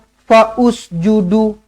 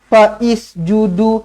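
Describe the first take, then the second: First: An extra 'u' vowel is sounded before the s. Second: An extra 'i' vowel is sounded before the s. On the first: "Tak nak" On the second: "Jangan dibaris-bariskan"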